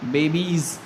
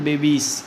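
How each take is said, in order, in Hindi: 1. इस शब्द का अंत z ध्वनि से होता है। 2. इस शब्द का अंत s ध्वनि से होता है। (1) "बेबीज़ ना कि" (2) "ना कि बेबीस"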